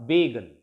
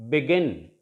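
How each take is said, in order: First: "begun" said as BEE-gun, long first syllable; BEE-gun, second syllable dropping; wrong stress on first syllable. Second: "begin" with short be-, stressed GIN; beGIN, low and measured; stress on last syllable. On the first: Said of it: "not begun". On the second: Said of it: "stress is on the last syllable". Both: Shown as a demonstration.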